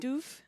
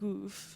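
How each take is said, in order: First: The word begins with a hard D sound. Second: The word begins with a soft G-like sound. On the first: The speaker calls it wrong. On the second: The speaker calls it right.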